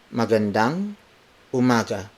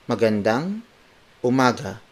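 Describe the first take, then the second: Both takes have the same delivery.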